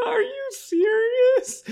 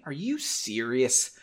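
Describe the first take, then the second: First: Very high, slow wailing sob; mock crying. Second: Said in the usual way. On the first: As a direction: wail it like an exaggerated crybaby. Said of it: "He cried". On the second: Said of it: "he cried without".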